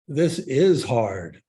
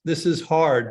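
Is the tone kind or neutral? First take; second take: kind; neutral. First: It is said in a warm, kind tone. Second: It is said in a plain, neutral tone. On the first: It acknowledges the difficulty with compassion. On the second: It simply acknowledges the difficulty.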